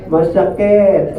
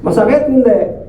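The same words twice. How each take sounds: First: "Masakit" drawn out slowly and falling; a slow, weighty "Masakit" to the congregation; slow emphasis. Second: Said in the usual way. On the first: Shown as a demonstration. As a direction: lean hard on "Masakit", slow and heavy.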